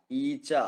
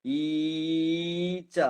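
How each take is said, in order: First: Said in the usual way. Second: ഈച്ച with the opening ee held very long; overlong vowel. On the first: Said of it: "എന്നൊക്കെ പറയുമ്പോ". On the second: Shown as a demonstration. Teacher showing an unusual long vowel, ഈച്ച with overstretched ee. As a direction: drag out the first vowel of ഈച്ച, eeee-cha. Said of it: "എന്ന് പറയാറില്ല".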